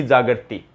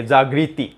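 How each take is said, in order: First: जागृति said as jaa-ga-ra-ti, with no ri; the mistaken जागृति, with the vowels split apart; wrong pronunciation. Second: जागृति said as jaag-ri-ti, with a clear ri; जागृति with ri, slow and careful; correct pronunciation. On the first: Teacher contrasts right and wrong forms for students, wrong take. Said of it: "न कि जागृति". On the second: Teacher contrasts right and wrong forms for students, correct take. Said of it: "इसको री के अनुसार बोलिए". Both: Shown as a demonstration.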